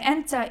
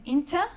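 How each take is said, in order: First: The word begins with an a vowel. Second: The word begins with an i vowel.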